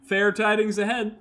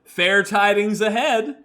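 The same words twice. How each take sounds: First: "Fair tidings ahead" said again, stress on tidings; settled take. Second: Fair tidings ahead, slow and careful; trying out a phrase. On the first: Streamer repeating the line once it sounds right. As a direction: land on "tidings" with the corrected reading. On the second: Streamer rehearsing a line, slow and careful. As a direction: say "Fair tidings ahead" slowly, testing the sound. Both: Shown as a demonstration. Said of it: "sounds like that's correct".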